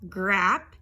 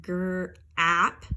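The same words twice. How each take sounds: First: Said in the usual way. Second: Gr-ap drawn out slowly; slow segmented gr-ap. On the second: Shown as a demonstration. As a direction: stretch gr-ap. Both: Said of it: "Here we have".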